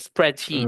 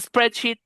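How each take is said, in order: First: The vowel in the last syllable is long. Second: The vowel in the last syllable is short. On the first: The speaker calls it right. "Tienes que hacerlo largo para decir spreadsheet" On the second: The speaker calls it wrong. "Porque si usted dice spreadsheet, ¿qué cree que usted que está?"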